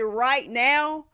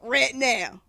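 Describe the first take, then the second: First: The word 'right' has its full 'eye' vowel. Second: The word 'right' is shortened to sound like 'ret'. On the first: "when they say right now" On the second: "So they go ret now"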